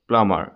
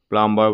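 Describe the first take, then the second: First: No b sound is pronounced in the middle. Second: A b sound is pronounced in the middle. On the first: The speaker calls it right. "ইয়াত বিটো silent হৈ থাকে" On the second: The speaker calls it wrong. "প্লাম্বাৰ বুলি নকয়"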